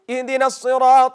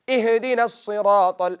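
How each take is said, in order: First: The h sound is cut short and barely heard. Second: The h sound ends with a small bouncing echo. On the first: "They made it shadid, strong letter" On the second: "they do qalqala"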